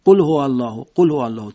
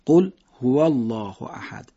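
First: قل هو الله run together, no gap after قل; rushed. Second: Slow, a brief pause after قل; small pause. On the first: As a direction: rattle off the phrase. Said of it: "تند ادا بکنیم". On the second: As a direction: pause lightly between قل and هو. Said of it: "یه مکس کوچیکی بدید". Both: Shown as a demonstration.

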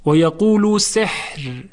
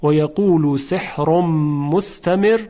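First: Slow, with the ra of سحر made light and silent-voweled at the stop; stopped sihr. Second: Slow, سحر run on into مستمر with a heavy ra and its vowel sounded; سحر linked with its ending, ra thick; joined sihrun. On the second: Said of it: "اینجا شایسته است که ما وصل کنیم". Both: Shown as a demonstration.

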